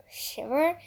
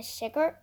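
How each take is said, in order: First: Said in the usual way. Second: Shiver read as "shicker" with a k sound; first wrong try at shiver; misread shiver. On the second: Shown as a demonstration. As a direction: stumble on shiver, saying "shicker".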